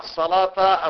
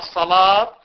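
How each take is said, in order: First: The word ends with a short -ta vowel. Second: The word ends with a short -tu vowel. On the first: The word is the object of an omitted verb. "بنصب لفظ الصلاة في المرة الأولى والثانية" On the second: The word is the subject of an omitted verb. "بالنسبة للرافع"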